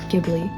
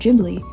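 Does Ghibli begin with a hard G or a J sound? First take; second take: hard G; J sound. First: The word begins with a hard G sound. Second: The word begins with a J sound. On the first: "for a very long time, I pronounced it Ghibli" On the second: "the person in the behind the scenes on the D V D said Ghibli"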